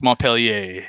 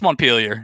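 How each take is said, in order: First: The name is said with a French pronunciation. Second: The name is said with an American English pronunciation. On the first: This is how the French city is named. "It's Montpellier if you are in France" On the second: This is how the Vermont town is named. "It's Montpelier if you're in Vermont"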